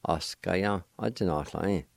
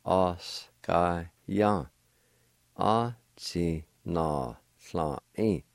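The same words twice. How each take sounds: First: Said in the usual way. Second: Os ka ya a ti na sla i at half speed; slow, careful pronunciation. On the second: Shown as a demonstration. Teacher joins both parts slowly for learners. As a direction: say it together slowly.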